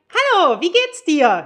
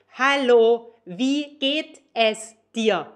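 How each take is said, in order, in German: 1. 'geht es' wird zu einer Silbe zusammengezogen. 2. 'geht es' wird als zwei volle Wörter gesprochen. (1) "it's natural" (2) "super stiff"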